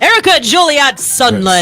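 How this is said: The name is said firmly and confidently.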